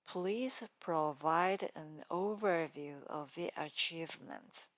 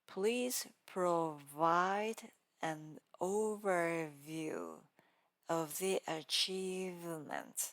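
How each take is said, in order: First: The V sounds are said naturally. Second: The V sounds are strongly exaggerated.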